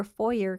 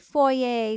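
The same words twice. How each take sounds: First: "foyer" said as FOY-er; American pronunciation. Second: "foyer" said the French way, FOY-ay; Canadian pronunciation. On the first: Retold or imitated. Podcaster citing the US way, "foyer" as FOY-er. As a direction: say "foyer" ending in a hard "er". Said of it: "which he says wrong. People in the U S". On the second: Shown as a demonstration. Podcaster showing how she says it, "foyer" as FOY-ay. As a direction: say "foyer" ending in an "ay" sound. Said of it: "how you say the word foyer".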